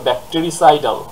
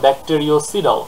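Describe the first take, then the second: First: No 'o' sound follows 'bacteri'. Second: An extra 'o' sound follows 'bacteri'. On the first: The speaker calls it right. "উচ্চারণটা হবে ব্যাকটেরিসাইডাল, এখানে কিন্তু কোনো ও নেই" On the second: The speaker calls it wrong. "স্টুডেন্টরা যেটা করে সেটা হচ্ছে তারা বলে ব্যাকটেরিওসিডাল"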